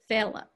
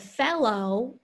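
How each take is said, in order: First: The word ends in a weak 'uh' vowel. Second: The word ends in a full 'oh' vowel. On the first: "it becomes fella" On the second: "instead of fellow"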